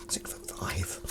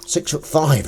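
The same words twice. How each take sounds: First: Whispering the number in awe; hushed, breathy repeat to himself; mock-awed whisper; whispered aside. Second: Said in the usual way.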